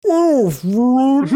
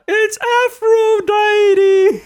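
First: Slowed-down drawn-out shout of Aphrodite; slow motion. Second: Very high, slow drawn-out cry; slow motion. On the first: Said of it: "Meryl Streep slows down and goes". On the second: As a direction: stretch Aphrodite in slow motion. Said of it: "saying in slow motion". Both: Retold or imitated.

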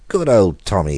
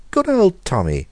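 First: Called out loudly, a touch raised; hearty call to the cat; cried out. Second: Much higher, loud anxious cry; cried out high. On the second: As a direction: call "Good old Tommy!" high and loud, pitch falling on the end. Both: A narrator's reading. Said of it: "he cried".

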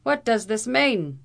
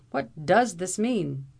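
First: High, loud, slowed Irish demand; vociferating. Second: Said in the usual way. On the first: A narrator's reading. Captain furiously repeats the question at the lawyer. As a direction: hurl the question back in outrage. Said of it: "vociferated Captain O'Blunderbuss".

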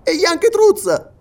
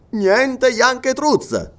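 First: Slow, very high, loud query; astonished question. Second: NIENTE YANKETRUZ very slow, high, then falling; firm denial. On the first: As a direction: lift it high in disbelief. Listener asks in growing surprise. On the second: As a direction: draw out "niente Yanketruz" as a final no. Sergeant answers in the negative. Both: Acted.

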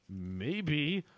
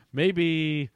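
First: "Maybe" stretched out with a rising end; drawn-out questioning MAYBE. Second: Said in the usual way. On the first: Acted. Reader retrying Ross's line, "Maybe" drawn out and rising. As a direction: draw out "Maybe", lifting it at the end. Retake after hold up.

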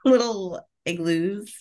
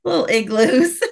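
First: Amused slow repeat. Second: Amused repeat. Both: Real, not acted. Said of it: "you said igloos".

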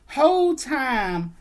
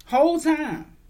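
First: Whole time, slow, high and loud; emphatic whole time. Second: Whole time high and loud. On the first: Venting to viewers about the pictures, loud stress. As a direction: stretch out Whole time in disbelief. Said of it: "venting emphasis". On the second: Stressing to viewers how close the pictures were, loud. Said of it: "repeated emphasis". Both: Real, not acted.

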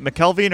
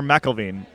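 First: "McKelveen" with a K sound starting KEL; unsure pronunciation. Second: "McElveen" as MACK-ul-veen; alternative pronunciation. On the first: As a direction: say "McKelveen" as mick-KEL-veen. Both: Shown as a demonstration. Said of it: "don't actually know how to pronounce".

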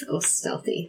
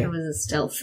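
First: Whisper. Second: Said in the usual way. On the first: Pretend. Jokingly says stealthy stealthily.

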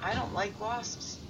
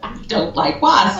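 First: Flat, quiet, slow deadpan. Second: Higher, slow, mock-solemn echo; deadpan. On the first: Retold or imitated. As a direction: say it dead straight to camera. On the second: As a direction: repeat it with mock seriousness. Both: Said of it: "dead looks at the camera and says".

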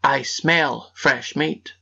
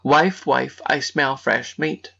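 First: Slow suspicious ogre, sniffing. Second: Slow suspicious ogre call; lightly voiced ogre, drawn out. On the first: Acted. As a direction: drag it out like a sniffing giant. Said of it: "sniffed suspiciously and said". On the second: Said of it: "the ogre's first words were".

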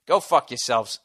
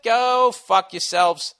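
First: Said in the usual way. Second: Slow, high, stretched-out curse; drawn-out insult. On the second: Real, not acted. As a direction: stretch every word with contempt. Repeated insult at New Yorkers.

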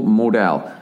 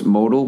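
First: "modal" as mo-DELL, full last vowel; second pronunciation option. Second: "modal" as MO-dl, weak last vowel; first pronunciation option. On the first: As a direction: say "modal" with a clear DELL ending, falling. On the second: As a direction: say "modal" to rhyme with yodel. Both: Shown as a demonstration. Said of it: "They don't fucking tell you how to pronounce it".

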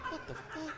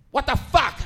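First: Tiny high whisper-soft gasp of disbelief; hushed shock. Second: High, loud outburst of disbelief; loud shock. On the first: Shopper overhearing a yelling mother, hushed shock. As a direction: react under your breath, high and very soft. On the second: Shopper reacting to mother's answer, loud shock. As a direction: exclaim it loudly, punching the swear. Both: Retold or imitated.

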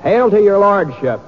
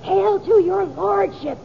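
First: Stiff high amateur delivery; stilted line reading. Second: High slow prompting; feed him the line slowly; stage prompt line. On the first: Acted. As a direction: recite it like a nervous amateur. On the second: Shown as a demonstration.

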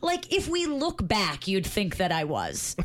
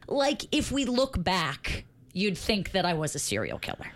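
First: Slowly dictating a text message. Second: Dictating. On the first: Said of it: "This is for the podcast". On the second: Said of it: "read it back to me". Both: Shown as a demonstration.

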